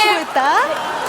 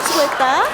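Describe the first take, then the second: First: Slow, high, lilting 수고했다 with a rising end; sing-song senior's hello; drawn-out high greeting. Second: Said in the usual way. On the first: Acted. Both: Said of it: "수고했다. repeated".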